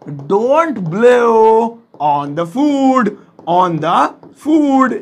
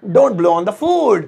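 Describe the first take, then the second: First: "Don't blow on the food" very slowly, stretching "blow" and "food"; teacher's slow model of "Don't blow on the food"; word by word. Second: Said in the usual way. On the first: Shown as a demonstration. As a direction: draw out each word, then repeat "on the food" in pieces. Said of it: "so simple है". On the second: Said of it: "ऐसे".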